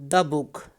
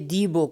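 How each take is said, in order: First: The vowel in 'the' is a reduced schwa. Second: The vowel in 'the' is long and full. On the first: The speaker calls it right. "before consonant we use a weak form" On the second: The speaker calls it wrong. "now we won't say"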